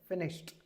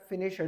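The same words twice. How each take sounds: First: The ending is said as a short t sound. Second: The ending is said as an extra syllable. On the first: The speaker calls it right. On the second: The speaker calls it wrong.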